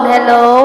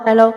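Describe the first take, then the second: First: The voice sounds with an echo effect. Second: The voice sounds dry without any echo.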